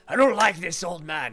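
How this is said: It is said in a burly male voice.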